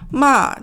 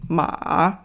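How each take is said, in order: First: The pitch drops downward. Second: The pitch stays low without rising. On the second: "low, and then, but it doesn't go up"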